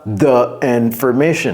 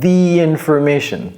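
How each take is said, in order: First: 'The' is said with a short 'uh' vowel. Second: 'The' is said with a long 'ee' vowel. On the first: The speaker calls it wrong. "Ne dites pas the information" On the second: The speaker calls it right. "non, the information"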